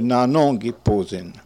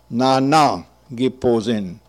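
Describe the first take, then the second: First: The second nasal vowel sounds like 'on'. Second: The second nasal vowel sounds like 'an'. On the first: This is how it is said today. "But nowadays we say nanon giposin" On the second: This is how it was said in earlier times. "you pronounce it as if it were the A-N of the same word chanson, an"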